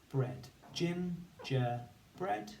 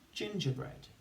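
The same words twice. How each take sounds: First: Gingerbread drawn out slowly, rising at the end; slow, rising phonics blend. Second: Said in the usual way. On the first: Shown as a demonstration. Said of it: "we're gonna say the sounds and write the word". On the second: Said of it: "say the sounds and write the word".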